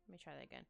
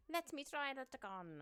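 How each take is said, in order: First: Said in the usual way. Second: Put-on slow, higher, louder silly accent; odd put-on accent. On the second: Artist talking to self while redrawing, odd put-on voice. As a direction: slip into an inexplicable goofy voice. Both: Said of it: "I don't know why that voice, or accent".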